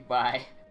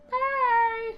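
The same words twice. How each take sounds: First: It is said in a plain, normal way. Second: It is said in an exaggerated, energetic way.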